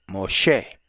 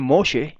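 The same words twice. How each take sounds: First: Moshe stressed on SHE; low-pitched mo-SHE for Moshe; Hebrew pronunciation. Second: Moshe stressed on the first syllable; English pronunciation. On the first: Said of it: "Lo correcto en hebreo". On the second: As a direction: say MO-she for Moshe. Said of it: "algunos dicen Moshe en inglés". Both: Shown as a demonstration.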